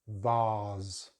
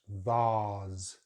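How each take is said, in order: First: It has a long 'ah' vowel and ends in z. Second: The same.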